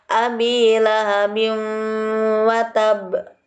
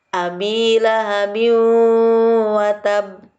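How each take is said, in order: Both takes have the same delivery.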